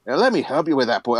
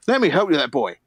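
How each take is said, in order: First: Put-on light Scottish accent on an old dwarf; a touch of Scottish brogue, quick. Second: Scottish dwarf. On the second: Acted. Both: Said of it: "why are all dwarves Scottish".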